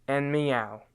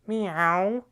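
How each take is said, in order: First: Said in the usual way. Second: A higher, catlike Meow; cat meow. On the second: Shown as a demonstration. Dance teacher imitating a cat for his students. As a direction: mew it like a kitten. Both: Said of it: "Then cat goes meow".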